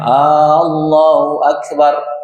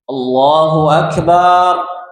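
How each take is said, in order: First: The opening vowel is drawn out long. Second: The final syllable is drawn out long. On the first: It asks whether God is the greatest. "dengan memanjangkan apa? Hamzahnya" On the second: It says God is a drum. "Atau barnya panjang?"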